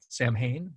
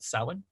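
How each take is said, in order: First: The word is pronounced the way it is spelled. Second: The word is pronounced differently from its spelling. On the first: "it's printed to say" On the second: "we actually usually pronounce it"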